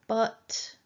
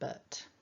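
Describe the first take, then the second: First: It is said strongly with a full vowel. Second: It is said weakly with a reduced schwa vowel. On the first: The contrast it introduces is being emphasized. "we would go with the but" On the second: It only links two parts of the sentence. "rather than but"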